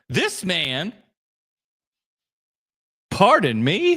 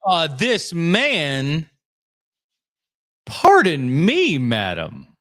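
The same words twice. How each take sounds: First: Quicker offended repeat; indignant repeat; mock offended. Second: Slow, offended drawl; indignant, taking offense slowly; mock offended. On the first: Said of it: "My word". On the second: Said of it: "Put some respect on the Paul Dano".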